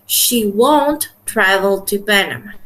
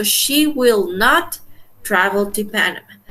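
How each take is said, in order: First: Slow demo with "won't" as one contracted syllable. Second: Slow, with "will not" as two separate words and "not" stressed; full form will not. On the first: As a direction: say "won't" as a single clipped word, slowly. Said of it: "no poner en contraction el won't". ("won't" pronunciado en una sola sílaba, despacio) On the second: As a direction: spell out "will not" and lean on "not". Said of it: "si ustedes lo pongan en contraction o no". ("will not" separado, con énfasis en "not") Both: Shown as a demonstration.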